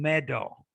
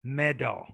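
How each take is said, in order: First: The middle consonant is a clear D. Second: The same.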